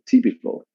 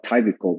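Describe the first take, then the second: First: "typical" with a short i, "TIP-i-cal"; correct pronunciation. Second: "typical" mispronounced as "TYPE-ical"; wrong pronunciation. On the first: Teacher giving the student the fix, "typical" said "TIP-i-cal". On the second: Teacher showing the student's mistake, "typical" wrongly said "TYPE-ical". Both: Shown as a demonstration. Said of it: "not typical, but typical".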